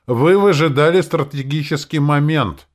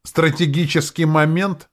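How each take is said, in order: First: Grand, puffed-up declaration, higher and louder; pompous senator oratory. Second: Mocking. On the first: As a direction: proclaim it like a self-important senator. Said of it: "напыщенным тоном завершил он". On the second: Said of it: "Он насмешливо прищурился". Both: A narrator's reading.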